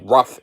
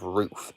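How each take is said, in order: First: The vowel is short, like in 'book'. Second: The vowel is long, like in 'food'. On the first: The speaker calls it wrong. "out west, they say rough instead of roof" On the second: The speaker calls it right. "instead of roof"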